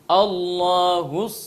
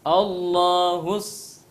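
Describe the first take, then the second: Both takes have the same delivery.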